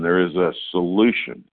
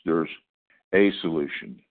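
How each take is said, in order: First: The word 'solution' is stressed. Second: The word 'a' is stressed. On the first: It is a real cure, not a placebo. "And we could put the emphasis on solution" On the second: There is only one solution. "We could put the emphasis on the A"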